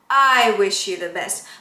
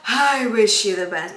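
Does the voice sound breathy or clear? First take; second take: clear; breathy. First: The voice starts cleanly, not breathy. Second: The voice starts with a breathy, airy onset. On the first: The speaker calls it right. "just a little bit so that your vocal folds come together well" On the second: The speaker calls it wrong. "that's too breathy"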